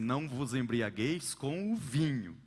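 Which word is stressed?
vinho. The emphasis falls on the word vinho. Other drinks besides wine are allowed. "Outros colocam o acento no vinho"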